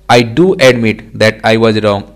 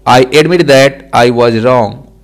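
First: "do" lifted in pitch for emphasis; stress on "do". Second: Said in the usual way. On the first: Shown as a demonstration. Teacher shows learners the emphatic sentence, stressing "do". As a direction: lean on the word "do". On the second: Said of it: "Normal sentence".

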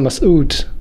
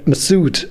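First: Masoud slowly with a hissed s; original pronunciation. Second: Masoud with the S voiced as Z; American pronunciation. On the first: Guest explains his own name to the host, original pronunciation. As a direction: give Masoud its own S, unhurried. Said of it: "mein Name Masoud wird dann Masoud ausgesprochen". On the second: Guest shows how Americans say his name, American pronunciation. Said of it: "aus dem S wird einfach ein Z". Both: Shown as a demonstration.

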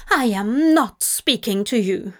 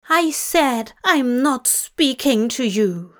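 First: Snapping. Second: Firm, louder angry repeat. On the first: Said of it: "he snapped". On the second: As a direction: repeat it with mounting anger. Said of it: "Aziraphale repeated angrily". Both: A narrator's reading.

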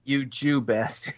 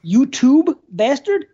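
First: You Jew bastard, slow and low, Jew stressed; You Jew bastard said slowly, lower and clearly; clarifying. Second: YouTube bastard, slow and puzzled; mishearing. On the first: Shown as a demonstration. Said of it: "Oh, Jew". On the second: Real, not acted. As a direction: say YouTube bastard slowly, rising at the end. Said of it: "Yeah, you".

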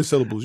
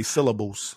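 First: Said in the usual way. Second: "syllables" with every syllable sounded out; co-host's careful pronunciation. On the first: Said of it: "I say syllables". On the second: Shown as a demonstration. Podcaster showing how his co-host talks, over-enunciated "syllables". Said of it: "You say syllables".

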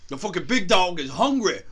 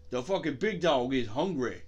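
First: Hammed-up loud hungry-dog call; mock big-dog shout. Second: Same line in a lower-key put-on voice; mock big-dog growler, not shouted. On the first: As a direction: belt it out like a hype line. Riffing on barking dogs outside. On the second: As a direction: drop out of the shout into character.

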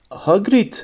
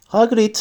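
First: Understated narrator's shout; mild acted cry. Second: High, tentative calling of a name; a touch of nervousness, pitched up; timid. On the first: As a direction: call the name in alarm, restrained. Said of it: "diye bağırdı Hermione". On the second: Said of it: "dedi Hermione ürkek ürkek". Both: A narrator's reading.

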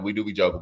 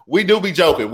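First: "We do be joking" said softer, lower. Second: "do" stressed, higher and louder. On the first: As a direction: drop "We do be joking" to a murmur. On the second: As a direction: hit "do" hard in "We do be joking". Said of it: "We be joking". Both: Shown as a demonstration.

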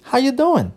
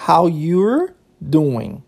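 First: "How you doing" run together, pitched high, dropping on "doing"; casual linked pronunciation. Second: "How you're doing" drawn out, each word separate; slow word-by-word. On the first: English teacher demonstrating the casual greeting, linked and lilting. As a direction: link "How you doing" quickly into one lilting phrase. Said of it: "Seria essa a pronúncia". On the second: English teacher spelling out a casual greeting, slow and separated. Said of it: "Olha que interessante, ó". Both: Shown as a demonstration.

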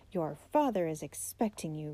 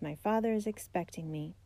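First: Understated shock, echoing what was just said. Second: Said in the usual way. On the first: A narrator's reading. Old uncle repeating the boy's news, mildly shocked. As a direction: repeat it back in mild disbelief. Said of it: "in a shocked tone of voice". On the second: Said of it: "David replied".

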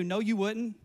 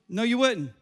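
First: Said in the usual way. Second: "wouldn't" hit louder with a falling end; emphatic repeat. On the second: Shown as a demonstration. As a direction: punch "wouldn't" the second time.

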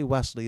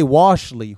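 First: "Wesley" said low, as WES-lee; name said correctly. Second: "Washley" loud, WASH-lee for Wesley; name misheard. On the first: The intended name "Wesley", plainly said. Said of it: "I say Wesley". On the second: Mock the mistake "Washley", hitting WASH hard. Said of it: "Or they say". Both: Retold or imitated.

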